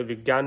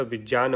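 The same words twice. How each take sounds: First: Said in the usual way. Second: विज्ञान said as "vijyan"; corrected pronunciation. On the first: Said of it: "विज्ञान नहीं होता". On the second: Shown as a demonstration. Teacher correcting the common form, विज्ञान as "vijyan". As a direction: put a j sound, not g, inside विज्ञान. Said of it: "विज्ञान होता है".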